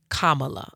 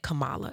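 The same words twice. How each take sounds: First: The first syllable sounds like 'comma'. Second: The first syllable does not sound like 'comma'. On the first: The speaker calls it right. "It's Kamala. ... I remember the comma" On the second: The speaker calls it wrong. "I said Kamala"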